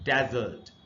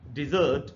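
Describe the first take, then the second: First: The stress is on the first syllable. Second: The stress is on the second syllable. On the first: It means a dry sandy region. "पहला जो syllable है इसी पर primary stress" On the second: It means to abandon or leave. "The word dessert pronounced as a verb"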